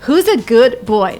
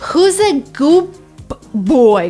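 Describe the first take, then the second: First: 'Good' ends with a clear d sound. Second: 'Good' ends with a p sound before 'boy'. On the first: "not good boy. Nobody said that" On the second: "replaced D with the first letter of a word that followed"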